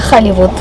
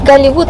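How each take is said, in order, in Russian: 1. Слово начинается с придыхательного звука H. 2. Слово начинается с твёрдого звука G. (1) "Если можете сказать «Хэ»" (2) "А если нет, Голливуд"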